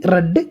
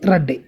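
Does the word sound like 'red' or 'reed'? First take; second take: red; red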